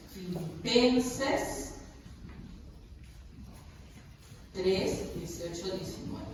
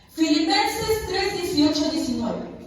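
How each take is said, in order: First: Very slow, fading from soft to a whisper; repeating the verse softly. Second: Announcing the verse. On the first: Pastor murmuring the verse again while people find it, slow and fading. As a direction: let "Filipenses tres, dieciocho, diecinueve" sink away until "diecinueve" is barely voiced. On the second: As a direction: call the chapter out so the whole room hears. Pastor announces Bible verse. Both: Real, not acted.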